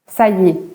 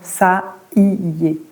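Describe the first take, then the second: First: The words are run together quickly. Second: Each word is said separately and clearly. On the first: This is how French speakers say it. "On dira" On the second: It shows each word clearly. "on ne le dit pas comme ça les Français. On va le dire là, c'est pour que vous voyez bien les mots"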